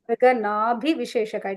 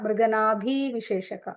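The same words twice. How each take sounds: First: The b is plain, without a breath. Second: The b is breathy, with an h. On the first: The speaker calls it right. "so Mriganabhi is short B" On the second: The speaker calls it wrong. "It is not"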